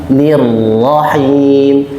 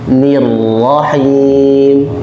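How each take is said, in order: No difference in how they are said.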